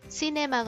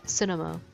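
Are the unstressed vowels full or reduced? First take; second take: full; reduced. First: The unstressed vowels are full and clear. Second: The unstressed vowels are weak and reduced. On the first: The speaker calls it wrong. "시네마가 아니라" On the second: The speaker calls it right. "힘 뺀 아"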